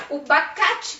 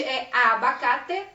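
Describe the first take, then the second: First: Bacate without the first a; wrong abacate. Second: Abacate said slowly in full; correct abacate. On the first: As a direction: drop the a and say bacate. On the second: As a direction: say abacate clearly with the a. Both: Shown as a demonstration. Teacher contrasting the wrong and right word. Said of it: "que não é bacate".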